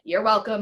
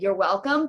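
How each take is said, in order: First: It sounds sassy and grumpy. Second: It sounds humble and sincere. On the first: The speaker feels superior to the listener. The speaker calls it wrong. "pretentious, like, grumpy, sassy" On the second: The speaker is aware of the gifts they offer. The speaker calls it right. "It's with humility"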